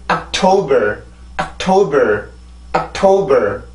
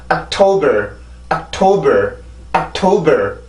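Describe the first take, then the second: No difference in how they are said.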